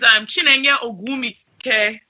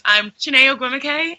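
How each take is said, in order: First: The name has its original Nigerian pronunciation. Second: The name has an anglicized, simplified pronunciation. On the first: It is the speaker's real name as said at home. "to my Nigerians" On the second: It is the version used with outsiders. "to non-Nigerians"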